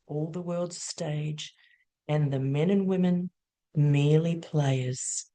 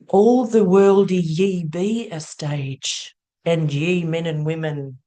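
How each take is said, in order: First: It is said in a plain, normal voice. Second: It is said in a put-on Shakespearean voice.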